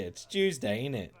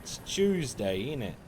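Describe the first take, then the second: First: High mock British "it's Tuesday, ain't it"; British accent. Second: Put-on British accent. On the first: Streamer repeating the British joke with a light accent. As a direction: drop the T and tag the question. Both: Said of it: "I don't say my L's or T's".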